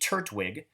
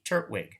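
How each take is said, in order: First: The T sound is clearly pronounced. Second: The T sound is dropped with a stop. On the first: "Can I say that with a T?" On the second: "Let's try it without the T"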